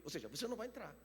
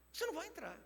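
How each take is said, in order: First: Frase dita baixo. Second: "Você não vai entrar" dito bem mais agudo e mais baixo; repetição aguda e suave. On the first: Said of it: "repete a sentença". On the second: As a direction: eleve a voz no "Você", mas sussurrado. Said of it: "repete mais alto e agudo". (repetição aguda e contida) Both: Shown as a demonstration.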